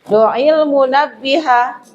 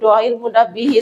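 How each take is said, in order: First: The last word ends with an 'a' vowel. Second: The last word ends with an 'i' vowel. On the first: The speaker calls it right. "tanda nasabnya pakai fathah" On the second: The speaker calls it wrong.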